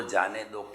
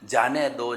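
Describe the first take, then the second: First: जाने दो dropped low and soft, fading out; जाने दो as a gentle fading sigh of release; softer release. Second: Said in the usual way. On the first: Shown as a demonstration. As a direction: let जाने दो sink away quietly. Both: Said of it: "आने वाले विचारों को रोको मत".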